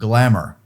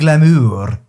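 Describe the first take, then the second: First: The word is said with a plain American pronunciation. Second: The word is said with a French-sounding pronunciation. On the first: The speaker calls it right. "that's the way Americans do it, and that's the correct way" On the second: The speaker calls it wrong. "But that would be glamour. And nobody wants to say glamour"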